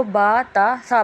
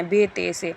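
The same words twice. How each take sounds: First: "با، تا، سا" with long aa endings; Arabic letter names. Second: "بے، تے، سے" with ay endings; quick ay-ending "بے، تے، سے", Urdu style; Urdu letter names. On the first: Shown as a demonstration. Teacher corrects the reading, long Arabic aa endings. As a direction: say "با، تا، سا" with an open Arabic aa. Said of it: "لیکن ہمیں اس کو". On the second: Retold or imitated. Teacher imitates mistaken readers, Urdu ay endings. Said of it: "ابھی بھی ایسے ہی پڑھتے ہیں".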